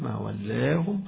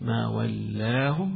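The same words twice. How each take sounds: First: The long a vowel is raised fully toward e. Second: The long a vowel stays fully open. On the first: "والإمالة" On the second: "الفتح"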